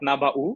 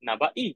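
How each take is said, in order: First: The word ends with a u vowel. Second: The word ends with an i vowel. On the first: "with a দম্মা" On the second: "কাসরা"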